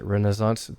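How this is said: It is said with an American pronunciation. "Americans pronounce it"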